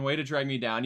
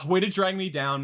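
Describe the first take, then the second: First: Said in the usual way. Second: Louder, higher mock wounded complaint, with a sigh first; hammed-up sulk; mock hurt. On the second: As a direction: play hurt for laughs. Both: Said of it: "I'm joking".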